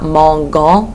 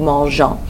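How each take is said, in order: First: The g is a hard g sound. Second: The g is a soft zh sound. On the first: The speaker calls it wrong. "not mangeons with a hard G sound" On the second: The speaker calls it right. "they actually leave the E in there"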